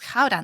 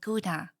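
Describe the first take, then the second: First: Gouda is pronounced the Dutch way. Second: Gouda is pronounced the English way. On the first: The speaker calls it right. "it's Gouda" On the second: The speaker calls it wrong. "not Gouda"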